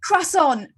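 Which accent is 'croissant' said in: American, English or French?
English. It is said in a plain English accent. "or you're like"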